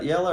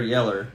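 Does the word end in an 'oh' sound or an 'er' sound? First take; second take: oh; er. First: The word ends with an 'oh' vowel. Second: The word ends with an 'er' sound. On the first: "yellow or yeller?" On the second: "yellow or yeller?"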